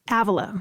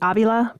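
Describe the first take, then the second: First: The name is said with an English accent. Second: The name is said with a Spanish accent.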